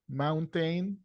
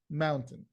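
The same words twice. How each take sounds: First: The last syllable has a full, clear vowel. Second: The last syllable has a quick, reduced vowel. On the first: The speaker calls it wrong. "You got people who, who pronounce it mountain" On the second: The speaker calls it right. "the sound is A. Super fast"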